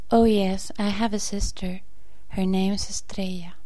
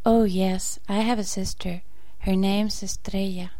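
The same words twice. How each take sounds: The two takes are said the same way.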